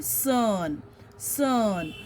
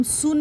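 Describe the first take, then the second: First: "सन" with an uh vowel, drawn out; correct sun pronunciation. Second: "सुन" with an oo vowel; mispronounced sun. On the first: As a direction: say "सन" with U as अ, not oo. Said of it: "Sound of U is अ". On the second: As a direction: say "सुन" as soon, the U as oo. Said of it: "हम सुन नहीं बोलते". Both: Shown as a demonstration.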